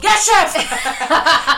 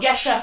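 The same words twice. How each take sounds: First: It is said louder, almost shouted. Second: It is said at normal, quieter volume.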